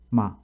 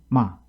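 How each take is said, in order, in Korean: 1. 이 음절은 높게 올라가는 성조로 발음합니다. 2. 이 음절은 급격히 떨어지고 짧게 끊어집니다. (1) "삼 성" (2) "여섯 번째 육 성은"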